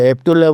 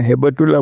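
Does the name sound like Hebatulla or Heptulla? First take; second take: Heptulla; Hebatulla. First: The middle has a p sound directly before t. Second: The middle has a b sound followed by a vowel. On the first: The speaker calls it wrong. "હેપ્તુલ્લા બરાબર નહોતું" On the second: The speaker calls it right. "પહેલાં તો આપણે હેબતુલ્લા બોલી નહોતા શકતા"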